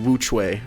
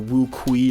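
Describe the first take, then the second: First: The second word begins with a 'ch' sound. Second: The second word begins with a 'k' sound. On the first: The speaker calls it right. "it's actually pronounced the Wu Chui" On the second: The speaker calls it wrong. "I was calling it like the Wu Kui or something like that"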